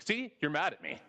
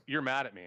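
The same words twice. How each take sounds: First: High, smug gotcha "See?"; triumphant gotcha. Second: Said in the usual way. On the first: Retold or imitated. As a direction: squeal it like you caught them out. Acting out an accuser, triumphant.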